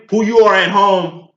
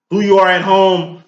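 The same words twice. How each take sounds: The two takes are said the same way.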